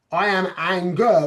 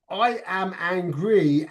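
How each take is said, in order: First: "I am anger" louder, falling on "anger"; "I am anger" stated as a noun; noun example. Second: "I am angry" slow, each word set apart; "I am angry" said deliberately; adjective example. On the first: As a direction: land firmly on "anger". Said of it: "that's a noun". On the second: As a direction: spell out "I am angry" slowly. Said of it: "Angry is a, is an adjective". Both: Shown as a demonstration.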